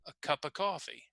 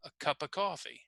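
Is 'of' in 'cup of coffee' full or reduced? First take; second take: reduced; reduced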